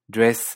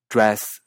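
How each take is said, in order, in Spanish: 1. La vocal es elevada, cerca de la vocal de kit. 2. La vocal se pronuncia con la lengua echada hacia atrás. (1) "Nueva Zelanda" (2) "comparando Canadá"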